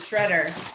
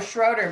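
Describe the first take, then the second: First: The first vowel sounds like 'eh'. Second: The first vowel sounds like 'oh'. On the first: This is how the name's owner says it. The speaker calls it right. "she pronounces it Shredder" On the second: This is how the name was said before. The speaker calls it wrong. "I always used to call her Schroeder"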